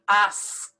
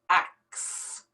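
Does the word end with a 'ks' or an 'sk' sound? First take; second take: sk; ks. First: The S sound comes before the K sound. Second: The K sound comes before the S sound. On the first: The speaker calls it right. "The S is before the K" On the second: The speaker calls it wrong. "switch around these two letters, the K and the S"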